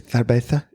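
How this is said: The z is said with a th sound. This is how people speak in Spain. "why they say cerveza in Spain"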